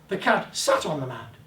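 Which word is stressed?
sat. The word sat carries the emphasis. It sat rather than stood. "Didn't stand beside it, he sat on it"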